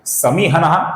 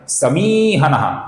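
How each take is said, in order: First: The second-syllable vowel is short. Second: The second-syllable vowel is long. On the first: The speaker calls it wrong. "ये गलत उच्चारण है" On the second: The speaker calls it right. "यहां पर मी दीर्घ है ... ये सही उच्चारण है"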